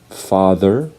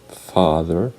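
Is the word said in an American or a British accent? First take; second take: American; American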